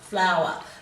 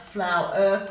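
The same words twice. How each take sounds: First: The ending is a weak, grunt-like schwa sound. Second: The ending is a clear, full 'er' sound. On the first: The speaker calls it wrong. "a schwat sound" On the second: The speaker calls it right. "pronounce them correctly"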